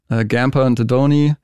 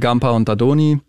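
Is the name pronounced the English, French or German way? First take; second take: English; German. First: The name is pronounced with English sounds. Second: The name is pronounced with German sounds. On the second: "deutsch ausgesprochen"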